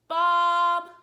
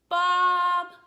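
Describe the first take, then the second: The two takes are said the same way.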